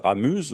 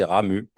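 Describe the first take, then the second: First: Ramuse with the final Z voiced; the mistaken "Ramuse", buzzing z at the end; final Z sounded. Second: "Ramu" ending on a clean u vowel; the preferred "Ramu", final z left silent. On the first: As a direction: say "Ramuse" ending on an audible z sound. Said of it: "on prononce pas le Z final". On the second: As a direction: say "Ramu" with no z sound at the end. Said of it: "je vous dis là". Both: Shown as a demonstration.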